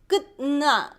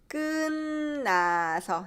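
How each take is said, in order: First: The final t sound stays before the n. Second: The final t sound becomes a nasal n. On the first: The speaker calls it wrong. "It's hard" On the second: The speaker calls it right. "we'll nasalize this. So it becomes"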